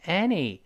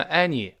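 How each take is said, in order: First: 'any' with lips spread sideways on the first vowel; wide-mouthed vowel. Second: 'any' with the mouth not spread; lax mouth vowel. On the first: Teacher correcting students, 'any' with a spread-lipped first vowel. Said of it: "嘴往两边咧开". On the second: Teacher showing the mistake, 'any' without the wide-mouthed vowel. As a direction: say 'any' wrongly, lips left slack on the first vowel. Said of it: "不能读成". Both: Shown as a demonstration.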